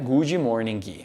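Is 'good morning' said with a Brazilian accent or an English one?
Brazilian. It is said with a Brazilian-style pronunciation. The speaker calls it wrong. "Não é good morning"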